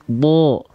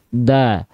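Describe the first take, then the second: First: The vowel is a heavy sound leaning toward o. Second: The vowel is a clear, thin a sound. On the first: The speaker calls it right. "Tapi kita lafalkan bo" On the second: The speaker calls it wrong. "kan nggak kita lafalkan da"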